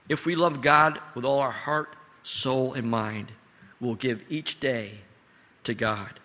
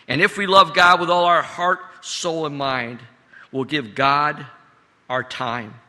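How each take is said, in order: First: Said in the usual way. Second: Louder emphatic repeat, hitting love; preached with rising force; preaching louder. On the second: Acted. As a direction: build it up with conviction. Repeated line, preached harder.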